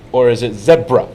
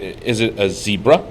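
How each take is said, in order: First: "zebra" said as ZEB-ruh; short-e zebra. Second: "zebra" said as ZEE-bruh; first syllable of "zebra" like see; long-e zebra. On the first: Asking to settle it for his wife, "zebra" as ZEB-ruh. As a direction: make "zebra" rhyme with Debra. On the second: Asking to settle it for his wife, "zebra" as ZEE-bruh. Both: Retold or imitated. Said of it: "would you clarify for my wife".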